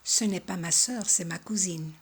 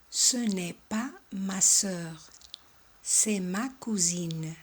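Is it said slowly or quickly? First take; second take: quickly; slowly. First: It is said a bit faster. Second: It is said slowly.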